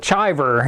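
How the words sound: The name has an Americanized pronunciation. "would be like the Americanized way"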